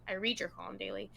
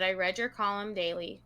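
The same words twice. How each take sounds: First: "read" said in the present tense, rhyming with need; read as "reed". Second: "read" said in the past tense, rhyming with bed; read as "red". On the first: Host correcting the letter's line, "read" pronounced like "reed". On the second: Host reading the letter aloud, "read" pronounced like "red". Reads 'read' as past, then corrects. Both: Shown as a demonstration.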